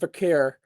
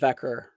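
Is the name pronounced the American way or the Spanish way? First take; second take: Spanish; American. First: The name is pronounced the Spanish way. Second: The name is pronounced the American way. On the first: "if you're Spanish" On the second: "if you're s American"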